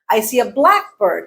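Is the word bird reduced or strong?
reduced. Bird is reduced, with stress on black. A particular species of bird. "as in the species that is called a blackbird"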